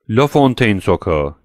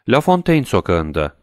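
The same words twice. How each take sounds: First: Slow, strained repeat of La Fontaine sokağı; voice barely coming out. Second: Said in the usual way. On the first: A narrator's reading. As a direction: force the words out with effort. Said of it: "güçlükle çıkan bir sesle". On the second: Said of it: "dedi Villefort güçlükle".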